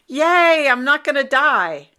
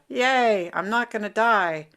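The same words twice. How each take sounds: First: It is said with lively, high energy. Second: It is said with groggy, low energy.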